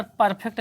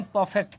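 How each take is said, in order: First: परफेक्ट with a sounded R, "par-phekt"; wrong pronunciation. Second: परफेक्ट with no R, "paw-fekt"; correct pronunciation. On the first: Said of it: "यहाँ पर परफेक्ट नहीं". (परफेक्ट में र पूरा बोलकर) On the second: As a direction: leave the R silent in परफेक्ट. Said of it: "परफेक्ट नहीं". (परफेक्ट में र silent, "पॉफेक्ट") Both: Shown as a demonstration.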